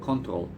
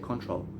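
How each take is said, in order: First: The word is said with a Spanish pronunciation. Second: The word is said with an English pronunciation. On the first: "Spanish people say control" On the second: "English people say control"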